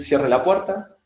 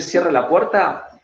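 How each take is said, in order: First: Said in the usual way. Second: Slow, stern order to close the door; firm, slow demand. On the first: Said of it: "con las manos sueltas y decir". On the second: Shown as a demonstration. Coach demos it with fists clenched, stern and slow. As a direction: plant your feet and command it slowly. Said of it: "pero parate fuerte, cerrá los puños".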